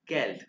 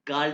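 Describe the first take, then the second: First: The vowel sounds like 'eh'. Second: The vowel sounds like 'ah'. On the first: The speaker calls it right. "ई को ए कहते हैं" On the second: The speaker calls it wrong. "गाल्ड नहीं"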